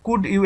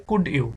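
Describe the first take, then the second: First: Said fast. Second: Said slowly. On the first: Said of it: "এটা যদি আমরা fast বলি". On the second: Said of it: "আস্তে করে বলে রে". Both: Shown as a demonstration.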